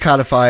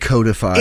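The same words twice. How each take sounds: First: The first vowel is short, as in 'cod'. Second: The first vowel is long, as in 'code'. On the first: The speaker calls it right. "It is codify" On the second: The speaker calls it wrong. "I said codify"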